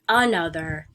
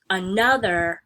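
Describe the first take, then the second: First: "another" wrongly stressed on its opening "a", A-nother; stress on first syllable. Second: "another" with the middle syllable stressed, a-NOTH-er; stress on second syllable. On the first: Teacher showing students the wrong way, "another" stressed on first syllable. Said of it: "stress is not on the first syllable". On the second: Teacher showing students the normal way, "another" stressed on second syllable. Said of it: "with stress on the second syllable". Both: Shown as a demonstration.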